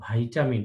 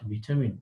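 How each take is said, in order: First: The first vowel sounds like 'eye'. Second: The first vowel sounds like 'ee'. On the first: The speaker calls it right. "সঠিক উচ্চারণ ভাইটামিন" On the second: The speaker calls it wrong. "Not ভিটামিন"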